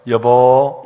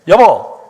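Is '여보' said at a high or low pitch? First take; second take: low; high. First: The word is said at a low pitch. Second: The word is said at a high pitch. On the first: It is a gentle, kind way to address a spouse. The speaker calls it right. "도레까지는 돼요. ... 가정에서 여보 이래야지" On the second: It is a sharp, harsh way to address a spouse. The speaker calls it wrong. "도레 미 올라가면 안 돼요. ... 여보 안 돼요"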